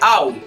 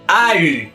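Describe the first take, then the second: First: It is a plain Spanish au sound. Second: It has an open a and a French u. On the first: The speaker calls it wrong. "No se pronuncia au" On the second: The speaker calls it right. "con la A abierta y la U francesa"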